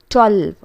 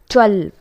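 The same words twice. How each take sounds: No difference in how they are said.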